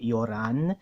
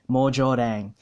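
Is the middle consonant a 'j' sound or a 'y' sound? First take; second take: y sound; j sound. First: The middle consonant is a 'y' sound. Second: The middle consonant is a 'j' sound. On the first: The speaker calls it wrong. "even though you're tempted to say yoran" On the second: The speaker calls it right. "It's actually j. That y makes a j sound"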